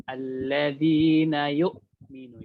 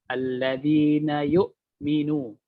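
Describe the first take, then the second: No difference in how they are said.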